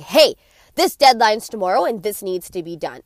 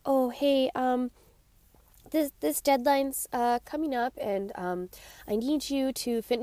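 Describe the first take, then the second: First: Louder, direct and commanding; firm assertive boss. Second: Softer, halting, full of ums; a boss who doesn't dare ask about the deadline; hesitant timid boss. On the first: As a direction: tell the employee the deadline is tomorrow, no softening. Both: Retold or imitated. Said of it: "you're like".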